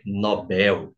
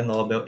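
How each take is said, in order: First: Nobel said slowly as no-BÉL, stress on the last syllable, open e; slow and careful: Nobel with the stress landing on BEL; correct stress. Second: Nobel said NÓ-bel, stress on the first syllable, open o; the wrong way: Nobel stressed on the first syllable like English. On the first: Teacher modelling the correct Portuguese Nobel, slow, stressing BEL. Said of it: "Em português a pronúncia é Nobel". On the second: Teacher showing students the wrong way to say Nobel, stress on NÓ. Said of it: "não é Nobel". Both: Shown as a demonstration.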